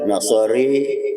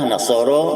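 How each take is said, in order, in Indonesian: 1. Vokal akhir condong ke e. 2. Vokal akhir adalah a terbuka biasa. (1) "Imam Kubro"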